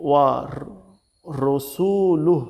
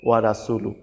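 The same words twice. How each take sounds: First: ওয়া র-, রসুলুহ slowly with rounded "ro"; correct heavy ra. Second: ওয়া রাসুলু with a light "ra", unstretched; common mistaken reading. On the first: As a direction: break after ওয়া র-, then stretch রসুলুহ. (ওয়া র-, রসুলুহ, মোটা র দিয়ে টেনে) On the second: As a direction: say ওয়া রাসুলু quickly as in Bengali. (ওয়া রাসুলু, হালকা রা দিয়ে) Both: Shown as a demonstration. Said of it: "এর জায়গায় বলে থাকে".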